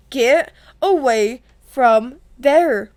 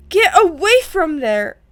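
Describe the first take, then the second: First: Each word separated and drawn out; slow stern order. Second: Urgent scolding command; stern order. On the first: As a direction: command it word by word, very slowly. Retake of Percy's order, word by word. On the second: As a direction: order them off firmly. Percy orders brother away from bathroom. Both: A narrator's reading.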